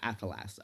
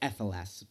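First: The first vowel sounds like an 'a'. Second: The first vowel sounds like an 'e'.

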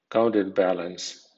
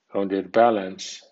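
First: The first part 'counter' carries strong stress. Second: The first part 'counter' carries medium stress. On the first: It is used as a noun. "con acento fuerte" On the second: It is used as a verb. "con acento medio"

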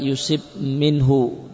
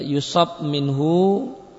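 First: The first word's second syllable has an 'i' vowel. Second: The first word's second syllable has an 'a' vowel. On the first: God decrees afflictions to test the person. "dan bisa juga dibaca yusib minhu" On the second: Afflictions may come from God or through people. "Bisa dibaca dengan yusab minhu"

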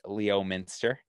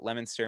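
First: The town name is said the announcers' way. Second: The town name is said the local way. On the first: The speaker calls it wrong. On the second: The speaker calls it right.

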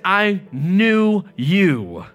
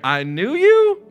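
First: It falls at the end like a statement. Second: It rises at the end like a question.

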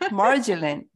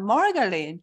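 First: It is said with English sounds. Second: It is said with Japanese katakana sounds. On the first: The speaker calls it right. "He said, margarine" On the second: The speaker calls it wrong. "we call it margarine"

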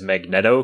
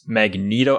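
First: The name sounds like 'magnet' plus 'o'. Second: The name does not start with 'magnet'. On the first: The speaker calls it wrong. "you think magnet, you just add an O to the end of it" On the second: The speaker calls it right. "I didn't realize it was Magneto"

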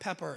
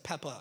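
First: The name ends with an r sound. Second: The name ends without an r sound. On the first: The speaker calls it wrong. "it's not Pepper" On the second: The speaker calls it right. "it's Peppa"

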